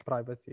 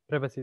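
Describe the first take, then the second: First: Privacy with a long i, PRY-vuh-see; American pronunciation. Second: Privacy with a short i, PRIV-uh-see; British pronunciation. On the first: Lecturer showing students the American form, privacy with long i. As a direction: say privacy American-style, first syllable like pry. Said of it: "is American". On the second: Lecturer showing students the British form, privacy with short i. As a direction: say privacy British-style, first syllable rhyming with give. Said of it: "privacy is British". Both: Shown as a demonstration.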